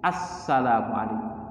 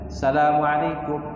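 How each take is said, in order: First: The article sound before salam is clearly said. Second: The article sound before salam is left out. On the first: The speaker calls it right. "Harusnya assalamualaikum" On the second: The speaker calls it wrong. "Ada dua huruf yang hilang"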